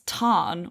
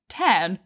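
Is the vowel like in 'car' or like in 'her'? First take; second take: car; her. First: The vowel sounds like the one in 'car'. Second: The vowel sounds like the one in 'her'. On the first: This is how the source language says it. The speaker calls it right. "it's Tarn" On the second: This is how the author says it. The speaker calls it wrong. "not Tern, but Rebecca Yarros pronounces it Tern, which is just not right"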